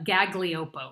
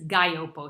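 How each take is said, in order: First: The middle g sound is pronounced. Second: The middle g sound is left out. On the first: The speaker calls it wrong. "if you see it spelled, it looks like" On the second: The speaker calls it right. "it's kind of like a silent double G"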